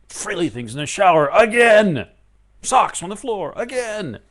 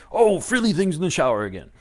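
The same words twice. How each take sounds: First: Loud, high fed-up outburst; hammed-up household gripe; exasperated. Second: Louder, raised pitch, huffy "Oh" up front; mock indignant excuse. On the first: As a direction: blurt it like you've had it with them. Exasperated angry complaint acted. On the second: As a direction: answer like the reason is obvious. Answer to why angry.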